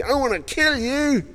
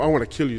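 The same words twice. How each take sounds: First: High, slow mock menace; a hint of a threatening mob; mock threat. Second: Said in the usual way. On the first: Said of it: "when people say to you". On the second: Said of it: "We need more".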